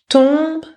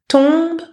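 No difference in how they are said.

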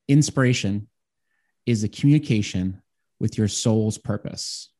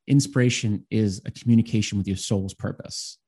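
First: It is said slowly and deliberately. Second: It is said at a normal pace.

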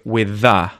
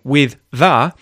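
First: The two th sounds merge into one. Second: The two th sounds are said separately. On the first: "when we speak really quickly, ... we'll say with the" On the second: "instead of saying with the"

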